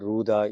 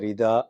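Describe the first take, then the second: First: The first syllable is said as ru. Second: The first syllable is said as ri. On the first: This is the common way it is said in the south. "தென்னிந்தியாவில்" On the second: This is the common way it is said in the country. "இந்தியாவில் பொதுவாக"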